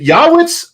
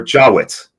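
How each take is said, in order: First: "Yawitz" starting with a Y sound, as in yacht; pronounced with a Y. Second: "Jawitz" starting with a J sound, as in job; pronounced with a J. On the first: Host asks guest about his surname, "Yawitz" with a Y. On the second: Host asks guest about his surname, "Jawitz" with a J. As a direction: say "Jawitz" with a hard J at the front. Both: Shown as a demonstration. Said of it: "first of all, I gotta ask".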